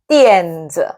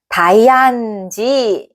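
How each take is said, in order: First: It is said 'tyen-dzuh' with one first syllable. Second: It is read like English letters, 'dai-an-ji'. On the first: The speaker calls it right. "띠엔즈 거든요" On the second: The speaker calls it wrong. "이렇게 읽으셨을까요?"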